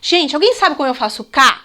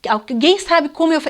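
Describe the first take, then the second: First: Asking the class Gente, alguém sabe como eu faço K, inviting; teacher asking class. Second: Said in the usual way. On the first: Shown as a demonstration. Teacher to class, demonstrating the question. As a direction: ask like a teacher fishing for answers. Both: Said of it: "é assim, ó".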